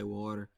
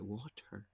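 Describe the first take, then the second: First: It is said in a non-British accent. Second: It is said in a British accent. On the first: "They they don't say water" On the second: "They say water"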